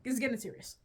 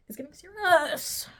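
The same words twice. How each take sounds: First: Said in the usual way. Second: Higher, louder, dramatic; hammed-up seriousness; mock dramatic. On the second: Real, not acted. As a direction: announce it gravely for laughs.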